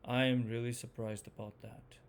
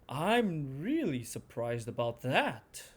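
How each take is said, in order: First: It sounds disappointed, with pitch falling all the way. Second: It sounds excited, with pitch going up and down.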